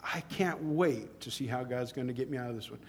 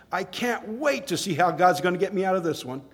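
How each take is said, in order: First: Quiet retelling. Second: Said in the usual way. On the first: Retold or imitated. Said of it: "And he says".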